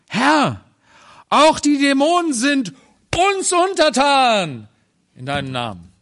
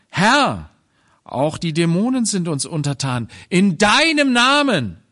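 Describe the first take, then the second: First: The stress falls on the word uns. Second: The stress falls on the word deinem. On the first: The power is taken as one's own strength. The speaker calls it wrong. "Dann wird plötzlich aus der Kraft des Herrn unsere eigene Stärke" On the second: The power comes from the Lord's name. The speaker calls it right. "So ist richtig betont"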